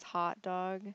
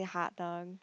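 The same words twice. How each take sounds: First: "hot dog" with a rounder, further-back O; friend's O. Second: "hot dog" with a fronted, open ah; Michigan O. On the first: Retold or imitated. Vlogger quoting how her friend says it, rounder O. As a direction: say "hot dog" the non-Michigan way. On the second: Shown as a demonstration. Vlogger answering with her own way, Michigan O. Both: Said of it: "we pronounce our O's differently".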